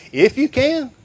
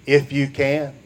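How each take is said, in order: First: "you" in "If you can" lifted high and questioning. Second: Said in the usual way. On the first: Shown as a demonstration. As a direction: toss the question back, rising on "you". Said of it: "Jesus asking the question to the man". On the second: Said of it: "will you read it with me?".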